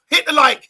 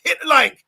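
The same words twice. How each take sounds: First: Barked order, high and loud; coach order. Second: Repeated barked order, high; coach order. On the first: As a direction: command it like a coach. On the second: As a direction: drive the order home again. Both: Pretend. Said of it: "And I'm like a coach".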